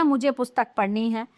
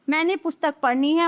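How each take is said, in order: First: "मुझे" prominent, then settling lower; correct example. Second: "पढ़नी है" rising at the end; "है" lifted as the faulty half; wrong example. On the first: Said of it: "ये शुद्ध हैं". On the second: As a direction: leave "मैंने पुस्तक पढ़नी है" open. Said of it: "ये तो अशुद्ध वाक्य हैं". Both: Shown as a demonstration.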